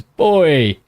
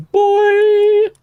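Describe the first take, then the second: First: Said in the usual way. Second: Put-on very high, louder yelled "Boy!"; shouted hype cry. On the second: Streamer shouting the donor's one-word message, high hype yell. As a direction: belt "Boy!" like a hype call. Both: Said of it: "all he's got is the messages".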